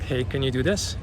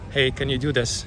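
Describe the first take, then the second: First: The pitch rises at the end. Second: The pitch falls at the end.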